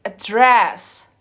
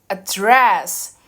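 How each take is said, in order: No difference in how they are said.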